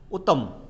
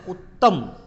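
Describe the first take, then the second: First: The middle consonant is said as a single sound. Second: The middle consonant is said as a doubled sound. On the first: The speaker calls it wrong. "अशुद्ध है" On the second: The speaker calls it right. "शुद्ध है"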